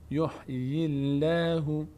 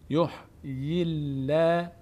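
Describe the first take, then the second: First: The L in Allah sounds light and thin. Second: The L in Allah sounds light and thin.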